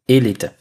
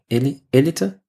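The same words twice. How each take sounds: First: The stress falls on the first syllable. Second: The stress falls on a later syllable. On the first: The speaker calls it right. "das erste E wird betont" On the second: The speaker calls it wrong. "Oder Elite?"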